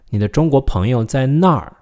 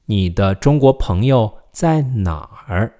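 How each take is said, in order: First: 那儿 falling sharply from high at the end; fourth tone. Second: Slow question with 哪儿 dipping at the end; third tone. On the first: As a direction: land on 那儿 with a firm drop. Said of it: "with a fourth tone". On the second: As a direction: say it slowly, ending on a dipping 哪儿. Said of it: "with a third tone". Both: Shown as a demonstration.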